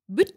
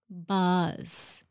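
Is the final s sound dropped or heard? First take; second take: dropped; heard. First: The word ends without an s sound. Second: The word ends with a clear s sound. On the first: The speaker calls it wrong. "Phải bỏ cái thói quen là xe buýt" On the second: The speaker calls it right. "Remember that S"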